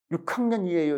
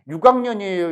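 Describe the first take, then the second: First: 육 학년이에요 with an aspirated k, yuk-kangnyeonieyo; 육 학년이에요 said crisply the standard way; 육 학년이에요, standard pronunciation. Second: 육 학년이에요 lenis Jeolla style; 육 학년이에요, Jeolla pronunciation. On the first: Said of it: "이렇게 말하지 않습니다". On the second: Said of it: "이렇게 말하지". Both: Shown as a demonstration.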